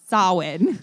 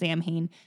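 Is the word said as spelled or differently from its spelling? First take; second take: differently; as spelled. First: The word is sounded differently from its spelling. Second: The word is sounded out as it is spelled. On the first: The speaker calls it right. "It's pronounced Samhain" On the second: The speaker calls it wrong. "It's not pronounced Samhain"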